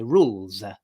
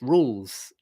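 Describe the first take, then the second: First: A vowel sound is added after the final consonant. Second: The word ends in an unvoiced consonant. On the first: The speaker calls it wrong. "Italians would say rules uh, like that" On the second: The speaker calls it right. "just make it unvoiced rules"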